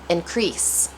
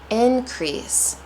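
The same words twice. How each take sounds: First: The stress is on the second syllable. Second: The stress is on the first syllable.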